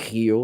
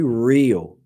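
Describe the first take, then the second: First: The R is said as a Portuguese R. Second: The R is said as an English R. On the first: The speaker calls it wrong. "Otherwise, you're going to say Rio, like the verb" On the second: The speaker calls it right. "when you speak English, letter R is here. So you have to say Rio"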